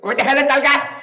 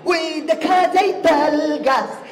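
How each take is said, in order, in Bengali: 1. এটি একজন নকল করা মন্ত্রীর কণ্ঠে আবৃত্তি করা হচ্ছে। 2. এটি একজন ব্যান্ড গায়কের ঢঙে আবৃত্তি করা হচ্ছে। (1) "দায়িত্বরত মন্ত্রী ছিলেন, উনার কণ্ঠটা ঠিক এরকম ছিল" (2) "ব্যান্ডের শিল্পী ... ও আবৃত্তি করবে এইভাবে"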